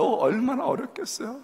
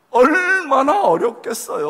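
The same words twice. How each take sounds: First: Said in the usual way. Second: 얼마나 drawn out, louder and higher; stretched emphasis. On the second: Shown as a demonstration. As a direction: lean hard on 얼마나, slowly. (얼마나를 길게 힘주어)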